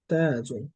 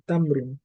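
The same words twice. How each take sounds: First: তাজুন with the vowel stretched long; drawn out. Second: তামরুন clipped short and quick, no drawn vowel; said quickly. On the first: Teacher showing students a lengthened তাজুন. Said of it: "টেনে পড়া হয়েছে". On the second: Teacher showing students the quick তামরুন. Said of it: "তাকে দ্রুত বলা হয়েছে". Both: Shown as a demonstration.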